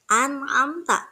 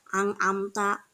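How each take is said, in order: First: The n sound is pronounced clearly and distinctly. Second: The n sound is blurred into another sound. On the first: The speaker calls it right. "membacanya harus jelas" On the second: The speaker calls it wrong. "tidak bisa dibaca ang amta"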